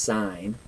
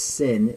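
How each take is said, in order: First: The word rhymes with 'fine'. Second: The word rhymes with 'pin'. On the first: The speaker calls it right. "it's pronounced sine" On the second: The speaker calls it wrong. "it's not pronounced sin"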